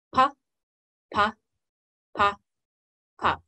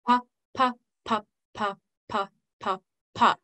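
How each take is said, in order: First: "pa" spaced evenly with a gap after each; one detached "pa" per slow beat; slow regular beat. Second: "pa" twice as often, evenly tapped; quick off-beat rhythm. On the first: Teacher going back over the pattern, slow regular beat. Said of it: "our slow one being our regular beat". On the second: Teacher going back over the pattern, quick off beats. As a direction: double the beat on "pa", stepping down in pitch. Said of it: "our quick one having voice on the off beats". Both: Shown as a demonstration.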